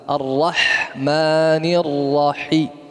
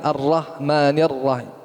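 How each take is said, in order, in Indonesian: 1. Bunyi h tenggorokan diucapkan dengan jelas. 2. Bunyi h tenggorokan lemah dan tidak jelas. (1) "Harus jelas" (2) "bukan ... Enggak jelas"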